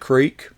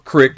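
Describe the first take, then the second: First: The word is said the standard way. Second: The word is said the northern regional way.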